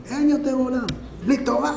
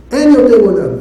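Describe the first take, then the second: First: Quiet lament. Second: Louder, forceful cry on אין; loud lament. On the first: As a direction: say it softly, as if to oneself. Quiet first take of lament. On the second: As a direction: proclaim it loudly, stressing אין. Loud repeat of same lament. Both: Shown as a demonstration.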